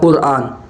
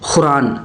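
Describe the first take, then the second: First: The word begins with a deep throat q sound. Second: The word begins with a raspy kh sound. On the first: The speaker calls it right. "असल होता है कुरान" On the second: The speaker calls it wrong. "जैसे कुरान को खुरान पढ़ते हैं लोग"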